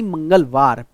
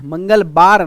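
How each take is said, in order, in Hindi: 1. आखिरी अक्षर 'v' की आवाज़ से शुरू होता है। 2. आखिरी अक्षर 'b' की आवाज़ से शुरू होता है। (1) "बार नहीं है, मंगलवार।" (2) "मंगलवार नहीं"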